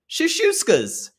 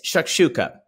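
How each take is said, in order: First: The middle sounds like 'shush', without the k. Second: The middle sounds like 'shuk', with the k. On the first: The speaker calls it wrong. "Rachel spelled it shashuskas" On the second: The speaker calls it right. "but it is a it's shakshuka"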